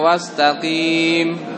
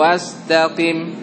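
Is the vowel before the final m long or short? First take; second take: long; short. First: The vowel before the final m is long. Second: The vowel before the final m is short. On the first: The speaker calls it wrong. "Jangan dibaca wastaqim" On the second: The speaker calls it right. "tidak ada ya-nya di situ"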